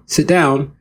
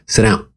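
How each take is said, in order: First: It sounds like a soft, polite request. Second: It sounds like a clear, firm command.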